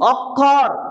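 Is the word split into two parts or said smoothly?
smooth. The word is said smoothly without a break.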